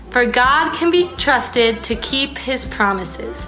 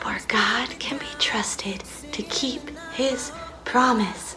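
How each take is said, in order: First: It is said at a normal speaking volume. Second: It is whispered very quietly. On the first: "normally, nicely" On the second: "super quietly and we're gonna whisper it"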